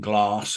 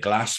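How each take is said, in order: First: The vowel sounds southern English. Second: The vowel sounds northern English. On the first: "rather than saying glass" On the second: "I'm from the north of England, ... I would say glass"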